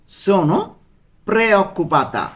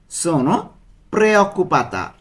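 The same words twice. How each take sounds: The two takes are said the same way.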